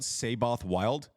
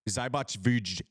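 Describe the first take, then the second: First: The name is read with an English w sound. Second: The name is said with a v sound. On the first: It follows the written spelling. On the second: It follows the player's own pronunciation.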